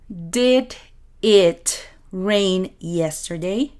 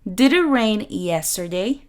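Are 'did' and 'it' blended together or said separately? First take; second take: separately; blended. First: Did and it are said as separate words. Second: Did and it blend into one linked sound. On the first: "En vez de decir" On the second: "vamos a unir estos dos sonidos"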